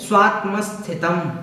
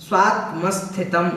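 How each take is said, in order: No difference in how they are said.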